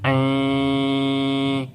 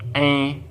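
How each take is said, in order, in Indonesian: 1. Vokalnya diucapkan panjang, dua ketukan. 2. Vokalnya diucapkan sebentar, jadi pendek. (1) "ini dibaca dengan panjang" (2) "ini tidak dibaca dengan panjang"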